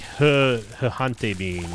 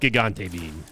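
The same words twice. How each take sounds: First: Gigante is said without a hard G sound. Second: Gigante is said with a hard G sound.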